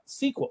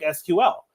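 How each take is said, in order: First: It is said the way insiders say it. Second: It is said the way an outsider says it. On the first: The speaker works in the field. The speaker calls it right. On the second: The speaker is new to the field. The speaker calls it wrong. "start talking about like S Q L"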